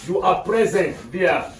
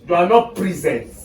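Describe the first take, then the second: First: "present" as PREZ-ent, short e first; adjective pronunciation. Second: "present" as pree-ZENT, long first vowel; contrasting pronunciation. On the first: Teacher explains the adjective to class, "present" said PREZ-ent. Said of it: "we use it as an adjective". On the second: Teacher contrasts it with the adjective, "present" said pree-ZENT. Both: Shown as a demonstration.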